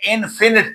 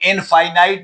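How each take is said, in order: First: The second vowel is a short 'ih' sound. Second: The second vowel is a long 'eye' sound. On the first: The speaker calls it right. "ये इनफिनिट पढ़ना है" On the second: The speaker calls it wrong. "इसको इनफाइनाइट ना पढ़ लेना"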